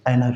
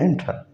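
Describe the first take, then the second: First: "एनर" with no T after the N; American-style "एनर", T dropped; American silent T. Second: Said in the usual way. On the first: Shown as a demonstration. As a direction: say "एनर", the N running straight into the vowel. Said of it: "एंट्रा नहीं है ये". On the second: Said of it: "हम जैसे पढ़ते हैं ना".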